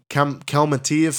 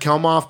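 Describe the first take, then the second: First: The name is longer and ends in 'tiev'. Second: The name is short and ends in 'moff'. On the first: The speaker calls it right. "I think it's Palm Kelmatiev" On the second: The speaker calls it wrong. "I've always said Kelmoff, but I don't think that's right"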